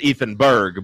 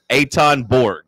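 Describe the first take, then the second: First: The name sounds like Ethan Berg. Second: The name sounds like Eitan Borg. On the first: This is how the spelling reads. The speaker calls it wrong. "it reads as Ethan Berg" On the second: This is how the bearer says it. The speaker calls it right. "but it's actually Eitan Borg"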